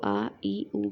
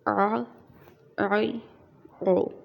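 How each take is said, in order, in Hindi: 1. सादे स्वर, उनके बाद गले की कोई आवाज़ नहीं। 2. हर स्वर एक अलग गले की आवाज़ पर खत्म होता है। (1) "इसको आ ई ऊ करके नहीं पढ़ना है" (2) "इसको आ आई ओ इस तरह से"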